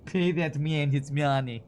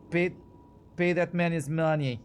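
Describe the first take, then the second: First: Slow, heavy mock Russian accent, hamming up a movie line; John Malkovich Russian accent. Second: Bad Russian accent. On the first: Streamer quoting Malkovich's card-table line, slow mock Russian accent. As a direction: lean into a bad Russian accent, drawn out. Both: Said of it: "John Malkovich's bad accent".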